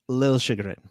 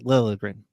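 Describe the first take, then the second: First: The name is said with a J sound. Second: The name is said without a J sound. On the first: This is the newer way the name is said. "that L and J kind of get merged a little" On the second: This is the older way the name was said. "when he was in Toronto, it was Lilligren"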